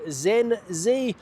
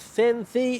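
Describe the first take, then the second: First: The name is pronounced with English sounds. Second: The name is pronounced with Spanish sounds.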